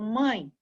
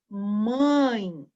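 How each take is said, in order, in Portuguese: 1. A palavra é dita rápido e de forma casual. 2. A palavra é dita devagar, alongando a vogal nasal. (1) "a gente fala um pouquinho mais rápido" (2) "eu falando assim para vocês perceberem"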